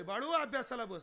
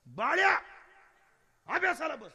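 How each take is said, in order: First: Said in the usual way. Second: Put-on loud, high call to a child; raised voice, ordering the child to study; mother losing patience. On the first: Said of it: "आई बाळाला म्हणते". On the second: Mother calling her son who will not listen, loud scolding. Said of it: "पोरगं ऐकत नाही".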